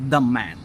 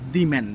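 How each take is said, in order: First: 'The' is pronounced with a short 'uh' vowel. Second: 'The' is pronounced with a long 'ee' vowel. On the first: The speaker calls it right. "So আমরা বলতে হবে দ্য man" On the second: The speaker calls it wrong. "দি man না"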